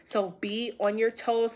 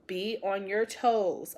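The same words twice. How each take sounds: First: Said in the usual way. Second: Toes stretched slow, pressed down with falling tune; slow down and lean on toes as a warning; slow emphatic warning. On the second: Shown as a demonstration. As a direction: repeat it slowly, weight on toes.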